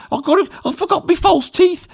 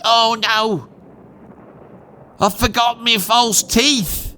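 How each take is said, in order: First: Very high Black Country wail; Black Country accent. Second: Put-on high-pitched lament in his own accent; a hint of a dismayed old nan, drawn out; lightly acted nan. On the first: Shown as a demonstration. Nan remembering her false teeth, in a high Black Country accent. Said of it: "So that would have been like this". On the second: Nan remembering her false teeth in an air raid, lightly acted dismay.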